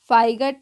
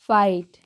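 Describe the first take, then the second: First: The word is said with a g sound. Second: The word is said without a g sound. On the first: The speaker calls it wrong. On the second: The speaker calls it right.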